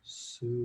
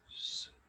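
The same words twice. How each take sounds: First: It is made with a soft, voiced sound. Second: It is made as a quiet whisper. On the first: "Join me with a soft sound" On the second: "quietly with a whisper"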